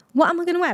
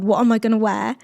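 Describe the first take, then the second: First: Higher, panicky repeat of "What am I gonna wear?"; mock panic. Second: Said in the usual way. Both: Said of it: "I said to my husband".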